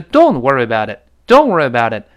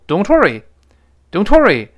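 First: "Don't" stressed while the t slips away into "worry". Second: "worry" hit high and loud, with the t in "Don't" clearly heard; stress on worry. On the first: Teacher shows the natural, lightly linked way to say it. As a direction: glide through the phrase and lean on "Don't". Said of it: "但这里是". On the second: Teacher shows what happens when "worry" takes the stress. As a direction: punch "worry" hard. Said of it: "如果worry重读". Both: Shown as a demonstration.

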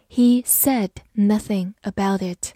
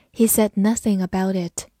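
First: Measured reading. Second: Said in the usual way. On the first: Shown as a demonstration. Teacher gives the past-tense sentence to learners, measured pace. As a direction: read it out carefully in short chunks. Slower first take of example.

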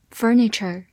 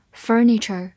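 Both takes have the same delivery.

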